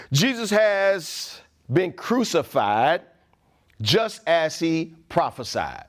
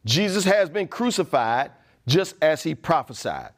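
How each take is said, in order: First: Each word spaced out slowly; slow and deliberate. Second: Said in the usual way. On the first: Shown as a demonstration. Preacher to church, slowly stressing the crucifixion. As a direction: lay it down slowly, weighing every word.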